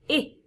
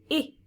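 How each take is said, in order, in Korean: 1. 짧은 모음이에요. hid의 i처럼요. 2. 짧은 모음이에요. hid의 i처럼요.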